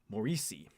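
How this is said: The name has an American pronunciation. "the American way"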